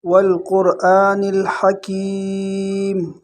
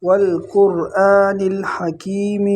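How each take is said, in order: First: والقرآن الحکیم with a short kasra on meem; correct recitation. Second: الحکیم with a long ya added after meem; common mistake. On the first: Teacher demonstrates the correct reading. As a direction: say الحکیم ending in a stopped meem. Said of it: "صحیح یہ ہے". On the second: Teacher imitates how people misread it. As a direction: stretch الحکیم into hakeemee. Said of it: "اکثر لوگ کیا پڑھتے ہیں". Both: Shown as a demonstration.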